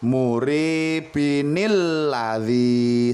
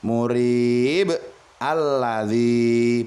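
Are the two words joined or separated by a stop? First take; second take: joined; separated. First: The words run together with an added 'nil' sound. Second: The first word is cut short, then a stop. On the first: The reciter continues into the next verse. "Jika diteruskan menjadi seperti ini" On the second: The reciter pauses at the end of the verse. "kalau kita wakof maka membacanya murib"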